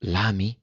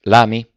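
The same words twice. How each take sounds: First: L'ami? softly whispered, close to her ear. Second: Slow, deliberate question; detto lentamente. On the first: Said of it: "e le sussurrò piano all'orecchio". (L'ami? sussurrato piano all'orecchio) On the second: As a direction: ask it slowly, weighing the word. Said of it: "disse lentamente". (domanda lenta e misurata) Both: A narrator's reading.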